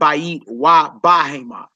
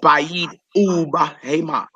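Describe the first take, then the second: First: The conjunction is said as 'va' before the noun. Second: The conjunction is said as 'oo' before the noun. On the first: The speaker calls it wrong. "It's not Bayit wa Bahema" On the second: The speaker calls it right. "It's Bayit ub Hema"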